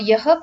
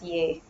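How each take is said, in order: First: The word is said as two syllables, yaha. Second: The word is said as one syllable, ye. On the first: This is the careful form that follows the spelling. "yaha pronunciation is okay" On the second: This is the everyday colloquial form. "colloquially, people generally pronounce it as ye"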